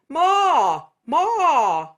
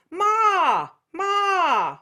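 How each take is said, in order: First: Said in the usual way. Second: "Ma" high and nasal, called out; a bright, nasal "Ma". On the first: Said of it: "so you could be going". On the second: Shown as a demonstration. Teacher showing the nasal version of ma for contrast. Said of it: "that nasal thing we just did".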